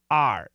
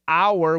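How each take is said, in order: First: The word is said with an 'ah' vowel. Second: The word is said with an 'ow' vowel. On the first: "we say are" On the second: "we don't say our"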